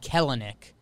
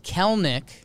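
First: The name is said with three syllables. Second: The name is said with two syllables. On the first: The speaker calls it wrong. "It looks like Kelenic. But you don't pronounce the second E" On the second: The speaker calls it right. "And then it's Kelnick"

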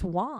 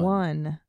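First: The word does not sound like the number one. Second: The word sounds exactly like the number one. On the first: The speakers' group says it this way. The speaker calls it right. "It's Juan" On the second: Other people say it this way. The speaker calls it wrong. "They say one"

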